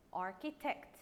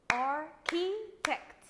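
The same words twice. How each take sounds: First: Said in the usual way. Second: "Architect" in three loud, slow, separate beats; clapped-out syllables. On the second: Shown as a demonstration. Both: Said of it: "Let's clap the word together".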